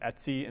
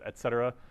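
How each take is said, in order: First: It is said as a short clipped form. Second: It is said as the full phrase 'et cetera'. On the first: This is how Unix users usually say it. "people in the Unix world uh, usually pronounce it etc" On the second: This is the full expansion of the abbreviation. "instead of et cetera"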